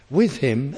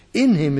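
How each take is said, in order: First: "With" stressed with a questioning rise. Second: "In him" punched louder; stress on in. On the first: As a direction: lift "With" as the doubtful reading. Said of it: "is an interpretation". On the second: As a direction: hit "In" firmly as the right word. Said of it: "is correct". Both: Shown as a demonstration.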